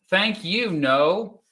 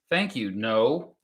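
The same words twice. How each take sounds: First: Higher "Thank you" with a rise; excited thanks. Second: Said in the usual way. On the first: Real, not acted. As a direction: thank them brightly. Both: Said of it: "repeated thanks".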